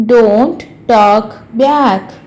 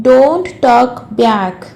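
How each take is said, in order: First: Very slow, word-by-word teaching voice; slow repeat. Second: Said in the usual way. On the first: Shown as a demonstration. Teacher repeats a parent's rebuke for learners, slowly. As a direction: separate each word so learners can follow.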